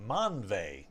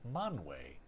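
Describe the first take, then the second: First: The last syllable begins with a 'v' sound. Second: The last syllable begins with a 'w' sound. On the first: "it should be pronounced Ve" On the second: "I'm going to start pronouncing the W umlaut E as way"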